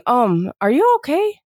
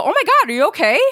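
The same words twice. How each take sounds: First: Gentle, hesitant check-in; tentative concern. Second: High-pitched startled check-in; alarmed concern. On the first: Bystander to someone seen crying, tentative concern. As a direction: ask carefully, drawing it out a little. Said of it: "you see someone crying". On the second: Bystander to someone who fell down, alarmed concern. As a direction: react as if someone just fell. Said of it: "Someone falls down, you go". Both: Shown as a demonstration.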